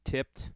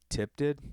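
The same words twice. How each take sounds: First: "Tipped." said alone with no "it", flat and final; "Tipped." as the correction, dry and settled; corrected word. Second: "Tipped it?" said with a stray "it" tacked on and a questioning rise; "Tipped it?" questioned as a clumsy mistaken form; wrong form. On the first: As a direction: fix it: plain "Tipped." with nothing after. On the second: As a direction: repeat "Tipped it?" as the odd, wrong version, rising at the end. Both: Shown as a demonstration. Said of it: "That's not a word".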